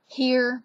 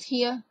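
First: The final R sound is pronounced. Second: The final R sound is dropped. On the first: "here becomes" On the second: "we drop the ERs at the end of our words"

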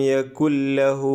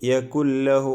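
No difference in how they are said.

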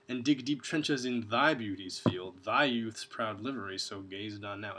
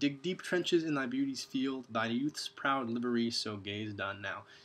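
First: The word thy is stressed, sounding sarcastic. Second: The word thy is not stressed.

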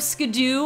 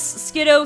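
First: The name ends with an 'oo' sound. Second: The name ends with an 'oh' sound. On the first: The speaker calls it wrong. "the anime calls Skiddo Skidoo" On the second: The speaker calls it right. "Skiddo is spelled Skiddo"

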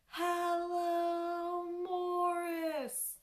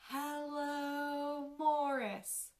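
First: It is said as loudly as possible. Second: It is said at a quieter volume.

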